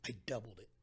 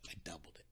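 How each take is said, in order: First: Said in the usual way. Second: Softer, whispered "I doubled it.". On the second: Shown as a demonstration. Repeated line whispered for emphasis.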